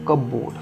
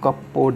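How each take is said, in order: First: The P sound in the middle is silent. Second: The P sound is pronounced in the middle. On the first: The speaker calls it right. "पी silent रहेगा" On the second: The speaker calls it wrong. "इसको कपबोर्ड नहीं बोलेंगे"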